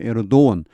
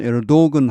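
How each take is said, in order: First: A vowel glide replaces the g sound. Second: A hard g sound is heard mid-word. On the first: "대체로 에르도원 G가 모음이 되는 것 같습니다" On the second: "어떤 사람은 에르도건 하기도 하고"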